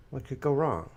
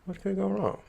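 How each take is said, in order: First: Ironic. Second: Ironic, higher. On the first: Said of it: "repeated ironic question". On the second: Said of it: "repeated higher ironic take". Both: Acted.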